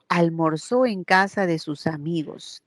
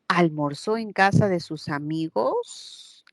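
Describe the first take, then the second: First: The pitch falls at the end of the sentence. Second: The pitch rises at the end of the sentence. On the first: It states a fact. "estoy afirmando" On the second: It asks a question. "Puedo transformar y decir"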